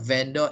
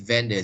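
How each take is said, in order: First: The second syllable has a full vowel. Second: The second syllable is reduced to a weak sound. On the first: The speaker calls it wrong. "it's not vendor" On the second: The speaker calls it right. "it is vendor"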